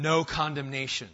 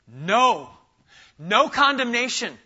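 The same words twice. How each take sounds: First: Said in the usual way. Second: No loud and high, condemnation punched after it; emphatic no. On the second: Shown as a demonstration. Preacher hammering No to his congregation, emphatic. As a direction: hammer the word No like a banner. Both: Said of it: "He's trying to make it emphatic".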